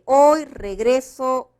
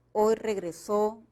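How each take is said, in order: First: Slow, loud, stress the middle: re-GRE-so in "regreso"; "regreso" with the weight on GRE, said slowly and loudly as a demo; hoy regreso, stressed re-GRE-so. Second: Slow, with the last syllable stressed: regre-SÓ in "regresó"; hoy regresó, stressed on the end. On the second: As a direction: land on the final SÓ of "regresó". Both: Shown as a demonstration. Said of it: "acá se puede cambiar la pronunciación de esta palabra".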